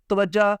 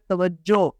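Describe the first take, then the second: First: توجہ said as ta-waj-ja; common mispronunciation. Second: توجہ said as ta-waj-jo; corrected ending. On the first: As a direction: end توجہ on an "a". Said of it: "یہ لفظ توجہ نہیں ہے". (توجہ کے آخر میں زبر) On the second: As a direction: end توجہ on a clear "o". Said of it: "بلکہ یہ کیا ہے". (توجہ کے آخر میں پیش) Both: Shown as a demonstration.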